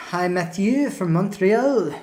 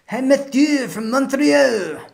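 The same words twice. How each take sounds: First: Light mock French accent, drawn out. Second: High, slow, hammed-up French accent; butchered French accent. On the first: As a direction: ease into a butchered French accent. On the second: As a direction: go over the top with a bad French accent. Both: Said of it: "this is probably my butchered French accent".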